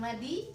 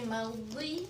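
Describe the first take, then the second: First: The consonant is said thin, with spread lips. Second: The consonant is said thick, with rounded lips. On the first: The speaker calls it wrong. "bukan madi" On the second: The speaker calls it right. "tapi madi karena dia tebal"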